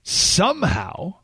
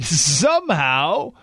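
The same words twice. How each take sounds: First: Said in the usual way. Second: Slow, laughing repeat of Somehow; mocking laugh. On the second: Shown as a demonstration. Host rereading a Post line to listeners, mocking laugh. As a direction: savour Somehow with a scornful chuckle. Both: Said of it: "I love that line".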